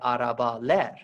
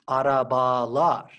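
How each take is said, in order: First: The suffix switches to an 'e' vowel. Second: The suffix keeps the same 'a' vowel throughout. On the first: The speaker calls it wrong. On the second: The speaker calls it right.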